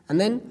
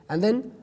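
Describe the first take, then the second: Both takes have the same delivery.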